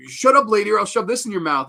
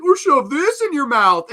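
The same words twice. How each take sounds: First: Louder, higher imitated villain threat; Fat Stuff. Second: Over-the-top villain imitation, loud and very high; Fat Stuff. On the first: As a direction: threaten her as a movie heel. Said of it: "their lines are, like, Fat Stuff's". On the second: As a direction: ham up the threat, pitched way up. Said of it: "just so over the top".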